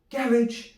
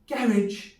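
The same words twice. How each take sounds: No difference in how they are said.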